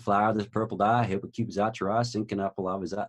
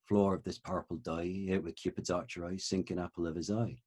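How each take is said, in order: First: It is spoken in an American Southern accent. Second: It is spoken in Shakespearean Original Pronunciation.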